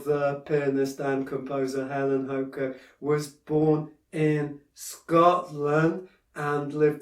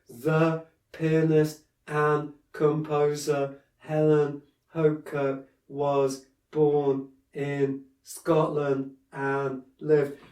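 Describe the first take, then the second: First: It is delivered smoothly, with a natural flow. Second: It is delivered stiffly, without natural flow. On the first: The speaker calls it right. "if you kind of try and flow a bit more" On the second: The speaker calls it wrong. "you're sat there going"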